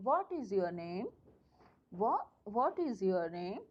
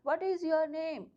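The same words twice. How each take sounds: First: Name said very slowly, falling at the end. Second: Said in the usual way. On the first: Shown as a demonstration. Teacher slowly demonstrating a falling tone on name. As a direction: drag it out and drop on name. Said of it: "fall कर ली है". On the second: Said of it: "नेम पर मैंने tone क्या कर ली है, fall कर ली है".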